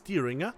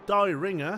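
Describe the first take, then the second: First: The first syllable does not sound like 'die'. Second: The first syllable sounds like the word 'die'. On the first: The speaker calls it right. "I hope it's Dieringer" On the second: The speaker calls it wrong. "it sounds like you want a ringer to die"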